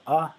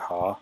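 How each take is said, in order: First: The word starts directly with the vowel. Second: The word starts with an audible h sound. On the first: The speaker calls it right. "keep that silent ... Say" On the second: The speaker calls it wrong. "It's a common beginner mistake to say"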